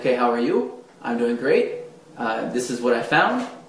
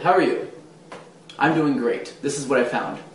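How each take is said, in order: First: The sentences end on an upward note. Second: The sentences end on a downward note.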